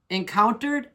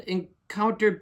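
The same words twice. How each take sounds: First: "Encountered" higher, rising into a question; puzzled query. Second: Said in the usual way. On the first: Acted. Hoser questions label's wording, puzzled rising "Encountered?". Queries word just read from label.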